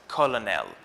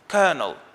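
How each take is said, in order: First: The middle consonant is an L sound. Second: The middle consonant is an R sound. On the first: The speaker calls it wrong. "the correct pronunciation is not colonel" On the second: The speaker calls it right. "the L in the middle of the word is pronounced as an R"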